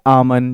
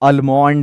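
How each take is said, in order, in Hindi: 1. L की ध्वनि silent है। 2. L की ध्वनि बोली जाती है। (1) "दैट्स आमन" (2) "बहुत सारे लोग बोलते हैं"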